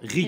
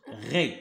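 First: "غي" with a thin i vowel; thin, light "غي", vowel like ee; thinned sound. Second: "غي" in a low, thickened voice; low, heavy "غي", vowel like ré; thickened sound. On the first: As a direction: lighten "غي" into a clear ri. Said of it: "هنا كنرقو". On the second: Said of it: "كنغلط الصوت". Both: Shown as a demonstration.

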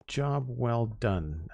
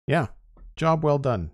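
First: Very slow, drawn-out "Job well done"; slow savoring. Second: Bright, high "job well done"; upbeat praise. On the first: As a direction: stretch "Job" out, softer, savoring it. Slow satisfied repeat of praise. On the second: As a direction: cheer "job" up high and falling. Praising finished build, then repeating. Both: Real, not acted.

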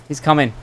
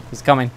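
The two takes are said the same way.

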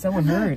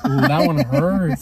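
First: Said in the usual way. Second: Drawn-out mock wince at the insult; slow teasing ooh of pain. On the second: Real, not acted. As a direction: stretch it out like a sting.

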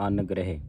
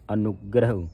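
First: ਅਨਗ੍ਰਹਿ as "an-greh", no u, ending in "eh"; misreading demonstrated. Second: ਅਨੁਗ੍ਰਹ as "a-nug-grau", u after n, rounded ending; tight pronunciation. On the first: Teacher quotes how some congregations misread it, ਅਨਗ੍ਰਹਿ as "angreh". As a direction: say ਅਨਗ੍ਰਹਿ loose, with a single n. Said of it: "ਅਨਗ੍ਰਹਿ ਸ਼ਬਦ ਨਹੀਂ ਪੜ੍ਹਨਾ". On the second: Teacher shows the correct reading, tight ਅਨੁਗ੍ਰਹ with u sounds. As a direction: press into ਅਨੁਗ੍ਰਹ and let it fall on a rounded vowel. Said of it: "ਫਿਰ ਕੱਸ ਕੇ ਉਚਾਰਨ ਹੋਵੇਗਾ". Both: Shown as a demonstration.

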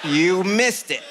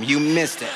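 First: MISSED drawn out, higher pitch; slow, emphatic prompting. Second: Said in the usual way. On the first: Retold or imitated. Dad coaching his son on what to tell Mom, slow and emphatic. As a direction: stretch out "missed" slowly and insistently. Dad repeats the rehearsed answer.

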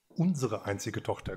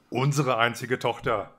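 First: Unsere pressed firmly, softer than the rest; correcting stress on Unsere. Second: Said in the usual way. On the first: A narrator's reading. Queen correcting the king, hitting Unsere. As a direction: lean on the word Unsere to correct him. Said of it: "korrigierte die Königin". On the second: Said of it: "fuhr der König fort".

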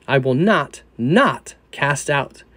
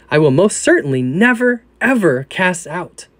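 First: "not, not" slowed and weighted; stress on the double not. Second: "never, ever" punched, slowing on "ever cast out"; stress on never ever. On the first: Reader showing the literal Greek, slow stress on "not, not". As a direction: lean on each "not", drawing out "not cast out". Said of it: "The text literally reads". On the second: Reader rendering the emphatic Greek negation, stressing "never, ever". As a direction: hit "certainly" and "never, ever" hard. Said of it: "two negatives piled on top". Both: Shown as a demonstration.

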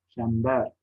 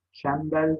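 First: Said in the usual way. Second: "Çember" ending in l, çembel; final r of "Çember" turned to l; misspelt form. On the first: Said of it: "doğrularını yazalım". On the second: Shown as a demonstration. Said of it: "yanlış yazılmış olan sözcüklerin".

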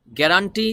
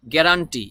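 Both takes have the same delivery.

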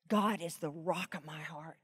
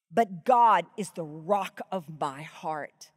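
First: Much softer, hushed repeat; whispered-down echo of the verse. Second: Slow, with GOD stressed; slow reverent emphasis on "God"; slow emphatic reading. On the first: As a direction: let it sink in, quietly. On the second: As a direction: lean hard on God, slowly. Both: Shown as a demonstration. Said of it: "listen, listen carefully".

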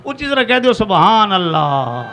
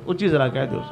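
First: Loud congregational prompt, stretched at the end; loud rallying call. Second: Said in the usual way. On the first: Real, not acted. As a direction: urge the crowd to answer louder. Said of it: "ਤੁਸੀਂ ਨਾ ਉੱਚੀ ਕਿਹਾ".

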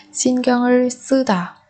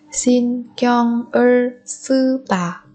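First: Said in the usual way. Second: "신경을 쓰다" slowly, syllable by syllable; small pauses between syllables of "신경을 쓰다"; drawn-out teaching model of "신경을 쓰다". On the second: Shown as a demonstration. Teacher repeats phrase syllable by syllable.

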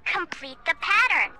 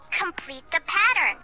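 The two takes are said the same way.

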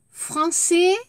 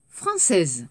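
First: "Français" lifted high with a rising end; rising masculine form. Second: "française" dropped low and falling; falling feminine form. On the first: Teacher models "Français" with a rising tune. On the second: Teacher models "française" with a falling tune. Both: Shown as a demonstration. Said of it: "Écoutez et répétez".

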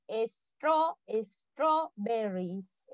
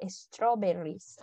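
First: "strawberries" very slowly, piece by piece, es-tro... berries; broken-down pronunciation. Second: "strawberries" slow but joined up, es-tro-BE-rris; whole-word pronunciation. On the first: Teacher showing how a long word is pronounced, syllable by syllable "strawberries". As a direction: split "strawberries" into drawn-out syllables. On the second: Teacher putting the long word together, "strawberries" said whole and slowly. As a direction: model "strawberries" as one unhurried word. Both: Shown as a demonstration. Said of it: "Pero se pronuncia".

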